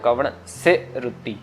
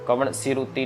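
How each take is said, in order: First: 'Se' and 'ruti' are said as separate words. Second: 'Se' and 'ruti' run together into one word. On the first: The speaker calls it right. "इधर से पढ़ना है" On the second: The speaker calls it wrong. "कवण सिरुति नहीं"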